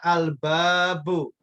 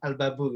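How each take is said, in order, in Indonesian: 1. Vokal setelah b dibaca panjang. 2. Vokal setelah b dibaca pendek. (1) "mesti ada panjangnya" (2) "Jangan dibilang al-babu gitu"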